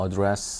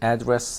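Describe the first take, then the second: First: The stress is on the second syllable. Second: The stress is on the first syllable. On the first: It is used as a verb. "동사를 쓸 땐 address 하고 이렇게 강세가 뒤로 가고" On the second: It is used as a noun. "명사를 쓸 땐 address 하고 발음되고"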